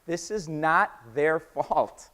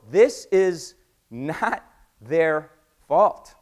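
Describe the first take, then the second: First: Slow, connected "This is not their fault", less forceful; clear emphasis. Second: Very slow, loud "This is NOT their fault"; emphatic word by word. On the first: Making it very clear to the audience, measured stress. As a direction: lean on "not" without raising the volume. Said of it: "I want to be very, very clear". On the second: Clearing the reps of blame, slow forceful stress. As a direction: isolate "not" with pauses, each word landing hard. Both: Real, not acted.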